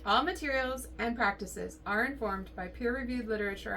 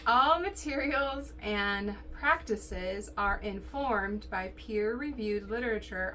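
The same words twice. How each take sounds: First: It is read in a smooth, flowing way. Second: It is read in a flat, mechanical way. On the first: The speaker calls it right. "a little more fluidly" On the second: The speaker calls it wrong. "I sounded very robotic there"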